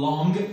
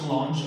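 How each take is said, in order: First: The word ends with an ng sound. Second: The word ends with a j sound. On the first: The speaker calls it right. "انا نقول لونغ" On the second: The speaker calls it wrong. "ما تقراش لونج"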